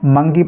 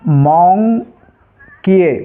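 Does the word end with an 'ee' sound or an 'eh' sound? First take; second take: ee; eh. First: It is said as one word ending in 'ee'. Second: It is read letter by letter, ending in 'eh'. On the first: The speaker calls it right. "तो इसको ऐसे नहीं पढ़ना है, मंकी पढ़ना है" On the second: The speaker calls it wrong. "अगर हिंदी अंग्रेजी वर्णमाला के हिसाब से इसको पढ़ेंगे तो क्या हो जाएगा"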